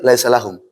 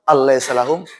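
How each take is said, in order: First: Laisa is said with no sound before it. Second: An extra 'al' sound comes before laisa. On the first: The speaker calls it right. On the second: The speaker calls it wrong. "Nggak mungkin"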